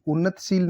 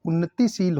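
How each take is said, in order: First: उन्नतशील with no i after t; wrong pronunciation. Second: उन्नतिशील with "ti" sounded; correct pronunciation. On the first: Teacher showing the error, उन्नतशील without the i. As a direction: say उन्नतशील as "unnat-sheel". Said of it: "नहीं लिखा जाता". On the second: Teacher correcting the word, उन्नतिशील with clear ti. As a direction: say उन्नतिशील as "unnati-sheel". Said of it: "होता है ये". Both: Shown as a demonstration.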